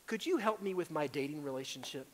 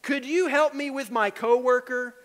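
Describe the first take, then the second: First: Said in the usual way. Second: Higher, louder, pleading ask; pleading request. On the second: Shown as a demonstration. Believer pleading with God over a coworker, louder. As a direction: beg for help on the coworker.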